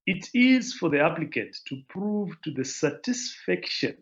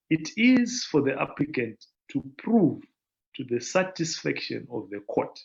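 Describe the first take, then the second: First: Said in the usual way. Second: Deliberate slow reading. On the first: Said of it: "I think I should read this slowly". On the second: Real, not acted. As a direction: read out a little more slowly, in measured phrases. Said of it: "I should read this slowly".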